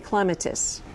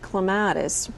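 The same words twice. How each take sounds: First: The stress is on the first syllable. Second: The stress is on the second syllable. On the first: The speaker calls it right. "won't cease to hiss until you call me clematis" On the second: The speaker calls it wrong. "just because I grow on a lattice, don't call me clematis"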